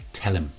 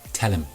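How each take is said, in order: First: The h sound in him is dropped. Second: The h sound in him is dropped.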